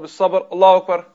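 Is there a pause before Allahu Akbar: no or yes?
no. The last word runs straight into Allahu Akbar. The speaker calls it wrong.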